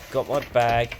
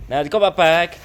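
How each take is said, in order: First: Said in the usual way. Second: Loud, high, triumphant; excited. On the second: Pretend. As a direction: announce it like a prize.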